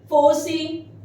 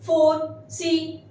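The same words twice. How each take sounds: First: Said in the usual way. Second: Very slow, syllables apart; slow model word. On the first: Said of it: "repeats word at normal pace". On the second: Shown as a demonstration. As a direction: say it slowly for learners. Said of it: "teacher models word slowly".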